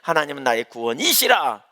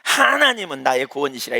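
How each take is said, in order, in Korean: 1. 강세는 이시라라는 단어에 있습니다. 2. 강세는 하나님은이라는 단어에 있습니다. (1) "이시라를 강조하잖아요" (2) "하나님을 강조하면"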